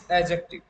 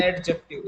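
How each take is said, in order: First: Adjective pronounced "a-jective"; silent D. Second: Adjective with a clear hard D before J; D wrongly sounded. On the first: Teacher corrects the word for students, silent D in adjective. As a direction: drop the D in adjective, straight to J. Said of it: "it is adjective". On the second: Teacher repeats the error as a warning, hard D in adjective. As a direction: slowly say "ad-jective" for adjective. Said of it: "not adjective". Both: Shown as a demonstration.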